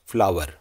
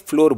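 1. यह शब्द 'ow-er' स्वर के साथ बोला जाता है। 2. यह शब्द एक ही 'or' स्वर के साथ बोला जाता है। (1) "सही उच्चारण क्या है? फ्लावर" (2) "बहुत लोग इसे गलती से फ्लोर बोल देते हैं"

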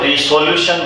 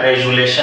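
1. शब्द 'resolution' s के साथ कहा गया है। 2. शब्द 'rezulation' z के साथ कहा गया है। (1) "बहुत सारे इसको रिसोल्यूशन बोलते हैं" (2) "इसका सही उच्चारण रेजुलेशन है"

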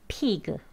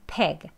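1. 이 모음은 긴장된 'ee' 소리입니다. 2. 이 모음은 이완된 소리로 'eh'에 가깝습니다. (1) "피그 이렇게 하시면 안 되고" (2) "약간 peg 소리가 들리는 peg 발음으로 하시는 게 맞습니다"

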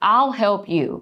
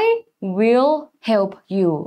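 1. "I will" ย่อเหลือพยางค์เดียว 2. "I will" พูดเป็นสองคำเต็ม (1) "หรือถ้าพูดไม่ I will ล่ะพูดยังไงได้บ้าง" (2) "ก็ต้องบอกว่า"

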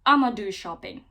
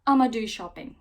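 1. 'I am going to' sıkıştırılarak 'I'ma' olur. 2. 'I am going to' sıkıştırılarak 'I'ma' olur.

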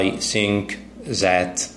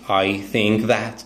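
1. أصوات th تُستبدل بحروف ساكنة أخرى. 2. أصوات th تُنطق كأصوات th حقيقية. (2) "like that"

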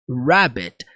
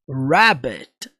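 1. A palavra começa com um R curvado do inglês. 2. A palavra começa com um R curvado do inglês.

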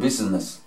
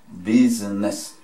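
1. Se dice rápidamente, con las sílabas unidas. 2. Se dice lentamente, en tres sílabas separadas. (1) "Si lo dicen rápido" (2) "lo pueden separar en tres"

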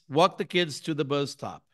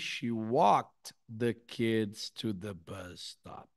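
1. É rápido, com o som de -ed engolido. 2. É devagar, com o som de -ed audível. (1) "eu junto o walk com o the kids e simplesmente ignoro o som" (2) "Se eu falar devagarzinho, aí dá"

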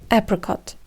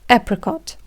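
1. Це вимовлено з американським акцентом. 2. Це вимовлено з американським акцентом.

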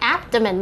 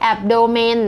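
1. เน้นที่พยางค์แรกคะ 2. เน้นที่พยางค์ที่สองคะ (1) "มันจะเน้นที่พยางค์แรกนะคะ" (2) "ไม่ใช่"

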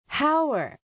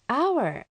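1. この単語ははっきり聞こえるhの音で始まります。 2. この単語は母音で始まります。hはありません。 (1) "hour とならずに" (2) "hour となるんですよね"

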